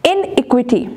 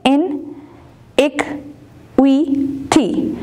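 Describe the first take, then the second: First: Said in the usual way. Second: iniquity very slowly as इन, इक, वि, टी; four separate beats on iniquity, long pauses between; syllable by syllable. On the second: Shown as a demonstration. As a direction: count out the syllables of iniquity, one at a time. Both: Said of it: "four syllable word है".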